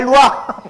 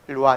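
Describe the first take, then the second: First: It is said impatiently and urgently. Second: It is said calmly and gently.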